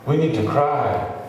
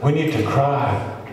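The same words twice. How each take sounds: The two takes are said the same way.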